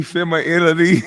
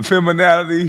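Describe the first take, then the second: First: "femininity" high and slurred, fem-uh-IL-ity; mock "femininity" high, swallowing the N into an L; mimicked mispronunciation. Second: "feminality" repeated high, with NAL in the middle; mock the word "feminality" in a raised pitch, -nality ending; mimicked mispronunciation. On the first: Host repeating the man's second attempt, mimicked mispronunciation. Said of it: "he changed it from feminality to femininity". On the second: Host repeating the man's wrong word, mimicked mispronunciation. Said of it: "He said feminality".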